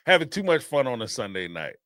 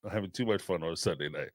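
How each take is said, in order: First: Said in the usual way. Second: Much softer, faster low aside; muttered under breath. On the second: Real, not acted. Host repeating the line to themself, muttered softly. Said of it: "repeated softer".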